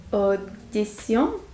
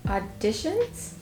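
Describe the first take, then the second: First: Audition as French oh-dee-SYON, questioning; slow Audition with French nasal ending; French pronunciation. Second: Auditions as English aw-DISH-uns, questioning; slow Auditions with English SH; English pronunciation. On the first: Learner trying the look-alike word, Audition said slowly in French. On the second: Learner showing a look-alike word, Auditions said the English way, slowly. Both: Shown as a demonstration. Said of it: "Pronounce it with a full English accent".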